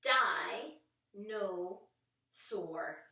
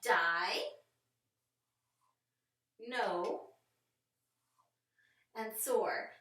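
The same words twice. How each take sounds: First: Die, no, soar said as separate beats; teacher sounding out dinosaur; syllables split apart. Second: Die, no, soar with long gaps, louder; emphatic segmented dinosaur; slow syllable split. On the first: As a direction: pause between each syllable. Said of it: "Listen for it". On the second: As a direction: stretch the pauses between syllables. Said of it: "listen to where we're gonna split". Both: Shown as a demonstration.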